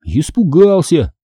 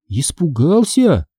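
First: Slow, higher-pitched confession; reluctant admission. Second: Slow, higher questioning echo; surprised. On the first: Brother admitting his fright to sister, reluctant. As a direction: own up to it, drawn out. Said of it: "негромко признался брат". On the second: Sister hearing her brother's confession, surprised. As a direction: repeat it as a puzzled question. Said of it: "удивилась я". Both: A narrator's reading.

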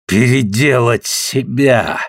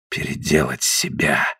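First: Slow, bitter exclamation. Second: Low, soft, slow dull mutter. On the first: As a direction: throw the words back, bitterly. Repeats it bitterly aloud. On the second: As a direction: mumble it, hollow and quiet. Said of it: "пробормотал он глухо". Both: Acted.

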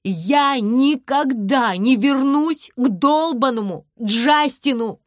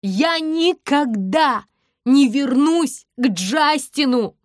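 First: Loud, slow, relishing yell; shouting it with delight; louder repeat. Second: Higher and loud, slow defiant shout; shouting to the whole street; slow yell. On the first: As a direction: savour every word, shouting. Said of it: "повторяю". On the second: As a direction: drag each word out, yelling. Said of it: "кричу я". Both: A narrator's reading.

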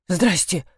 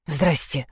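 First: Dazed, a touch quiet; a dumbstruck hello; stunned greeting. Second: Softer, lower numb hello; repeated numb greeting. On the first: Caught expert greets the family, dazed. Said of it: "ошарашенно ответил эксперт". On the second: Expert greets Lena again, numb and quieter. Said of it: "повторил Балагоев". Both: Acted.

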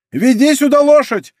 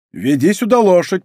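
First: Loud, high bellowed order; booming call, pitched way up; thunderous shout. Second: Raised-pitch prompt, short of a shout; feed him the order to call out; firm instruction, moderately voiced. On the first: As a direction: shout it thunderously across the yard. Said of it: "крикнул Планше громовым голосом". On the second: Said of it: "подсказал Д'Артаньян". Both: A narrator's reading.

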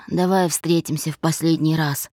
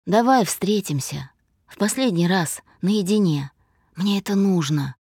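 First: Firm, understated demand. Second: Slightly tipsy, halting plea; slurred speech. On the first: Man wants one last meeting, mildly demanding. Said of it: "требовательно сказал он". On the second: Drunk man begs his ex to meet, mildly slurred. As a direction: plead in short, loose bits, a touch drunk. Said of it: "заплетающимся языком сказал он". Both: A narrator's reading.

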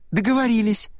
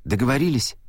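First: Much higher, bright happy agreement; gladly seal the deal; joyful exclamation. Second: Said in the usual way. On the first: A narrator's reading. Girl happily agreeing to the older boy's promise, joyful. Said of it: "радостно воскликнула Аннабет".

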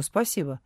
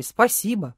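First: Said in the usual way. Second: Mocking echo. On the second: A narrator's reading. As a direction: mockingly repeat спасибо. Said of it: "Ишь, вежливая какая". (передразнивая «спасибо»)

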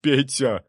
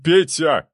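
First: Raised, imploring call, short of a shout; anxious plea, less forceful; pleading babble. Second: Loud, high cry of a name; sharp raised yell; desperate shout. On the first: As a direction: beg him by name. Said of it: "бормотал он". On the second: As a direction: call out to him in panic. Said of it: "крикнул Цепляев". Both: A narrator's reading.

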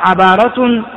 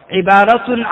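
First: عبارة said as ʕabāra, with an a after the ain; ain with fatha. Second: عبارة said as ʕibāra, with an i after the ain; ain with kasra. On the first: Teacher showing students the second reading, عبارة as ʕabāra. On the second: Teacher showing students the first reading, عبارة as ʕibāra. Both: Shown as a demonstration. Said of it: "بكسر العين وفتحها".

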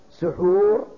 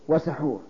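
First: "سحور" with short u after س, loud; damma on sīn. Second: "وسحور" with short a after س; fatha on sīn. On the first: Teacher giving a parallel example, loud damma on س in "سحور". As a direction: say "سحور" as suḥūr, held out. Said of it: "السحور بالضم". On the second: Teacher giving the contrasting word, fatha on س in "وسحور". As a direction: say "وسحور" as wa-saḥūr. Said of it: "السحور بالفتح". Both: Shown as a demonstration.

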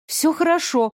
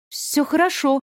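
First: Stubborn. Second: Loud. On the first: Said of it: "упрямо повторила я". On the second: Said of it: "громко сказала я". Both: Acted.

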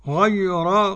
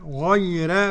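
First: Said in the usual way. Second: "غير" with a light, thinned ra; Warsh reading. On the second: Shown as a demonstration. Sheikh showing Warsh's reading, light ra. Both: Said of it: "بترقيق الراء".

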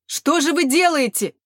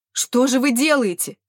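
First: Higher, louder wail. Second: Loud, high lament; wailing. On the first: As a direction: wail it harder, rising in despair. (причитание, громче и выше) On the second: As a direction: wail at the officer. (причитание) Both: A narrator's reading. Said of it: "запричитал мужчина".

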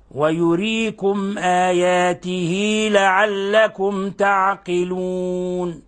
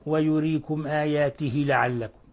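First: Sung, آياته with a two-beat ya, said very slowly; sung, recite slowly, with a short ya in آياته; sung, correct recitation. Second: آياته with the ya cut short, said softer; wrong recitation. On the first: Sung, teacher reciting the verse for students, in slow recitation. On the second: Teacher showing students the wrong way, with a soft mock mistake. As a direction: clip the ya in آياته. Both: Shown as a demonstration. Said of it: "ولا نقول".

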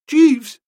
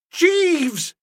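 First: High, anxious start of a faltered question; quick, high cry of dread; faltering. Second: High, drawn-out outraged call; thundering. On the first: Master faltering to his valet as suspicion strikes, faltering. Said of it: "I faltered". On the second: Master rises from his chair to rebuke valet, thundering. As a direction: thunder the name in indignation. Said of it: "to say I thundered". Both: A narrator's reading.

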